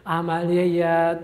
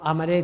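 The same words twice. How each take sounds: First: عملهٔ drawn out very slowly syllable by syllable; slow spelled-out word. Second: Said in the usual way. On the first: Shown as a demonstration. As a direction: say عملهٔ slowly so pupils catch it. Teacher repeats the term slowly. (کلمهٔ عملهٔ را خیلی آهسته و کشیده بگو)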